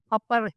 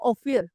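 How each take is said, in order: First: The name is said as Apar. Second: The name is said as Ophir. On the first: The speaker calls it right. "yun po yung pronunciation" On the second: The speaker calls it wrong. "ang pronunciation hindi po Ophir"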